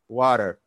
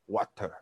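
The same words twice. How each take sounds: First: It is said in an American accent. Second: It is said in a British accent.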